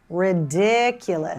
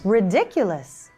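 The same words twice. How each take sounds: First: The middle syllable is drawn out longer. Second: The middle syllable is given a higher pitch. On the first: "By stretching the middle syllable" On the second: "By increasing the pitch"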